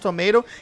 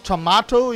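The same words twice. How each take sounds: First: It is said with an American accent. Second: It is said with a British accent.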